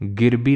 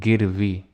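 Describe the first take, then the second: First: The middle consonant is a b sound. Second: The middle consonant is a v sound. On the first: The speaker calls it wrong. "जहाँ तो तुम्हें बा वाह बोलना चाहिए बा बोल रहे हो" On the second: The speaker calls it right. "नहीं गिरवी"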